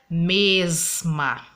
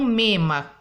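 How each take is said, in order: First: The word is said with its s sound. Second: The word is said without its s sound. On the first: It follows the standard norm. The speaker calls it right. "a forma correta seria mesma" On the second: It is informal country speech. The speaker calls it wrong. "o Chico usou na história em quadrinho"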